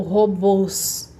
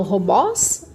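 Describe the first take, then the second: First: Robôs with a closed, inward ô, drawn out; closed vowel. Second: Robós with an open ó, pitched up; wrong open vowel. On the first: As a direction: round the last O of robôs inward. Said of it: "Mais pra dentro". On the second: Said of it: "Eu falo robós ou robôs". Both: Shown as a demonstration.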